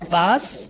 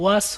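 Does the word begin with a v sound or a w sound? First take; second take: v sound; w sound. First: The word begins with a v sound. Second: The word begins with a w sound. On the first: The speaker calls it right. "এটা তো হচ্ছে ভি" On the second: The speaker calls it wrong. "এটা ওয়াস হবে না।"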